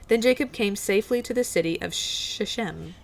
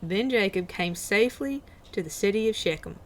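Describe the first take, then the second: First: It is read in the speaker's ordinary accent. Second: It is read in a put-on Southern US accent.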